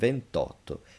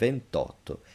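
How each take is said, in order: First: The i of venti is dropped before otto. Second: The same.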